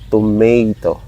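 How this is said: It is spoken with a Filipino accent. "Here in the Philippines, Filipinos uh, tend to say tomato"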